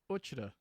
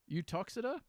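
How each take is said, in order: First: The name is said the local, shortened way. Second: The name is said the standard, non-local way. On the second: "I got two pronunciations here"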